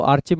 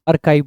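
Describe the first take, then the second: First: आर्चिव with a "ch" sound in the middle; wrong pronunciation. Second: आर्काइव with a hard "k" sound; correct pronunciation. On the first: Teacher warning students off a misreading, mispronounced आर्चिव with "ch". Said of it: "इसको आर्चिव मत पढ़ना". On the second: Teacher correcting students' reading, आर्काइव said with hard "k". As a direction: say आर्काइव as "AR-kive", rhyming with "hive". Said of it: "आर्काइव बोलते हैं इसको". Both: Shown as a demonstration.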